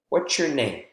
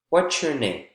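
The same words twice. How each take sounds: First: The stress falls on the word name. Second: The same.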